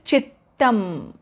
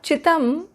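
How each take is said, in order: First: The middle t sound is held and doubled. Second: The middle t sound is short and single. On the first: The speaker calls it right. "When two takaras are together" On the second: The speaker calls it wrong. "It is not Chittam"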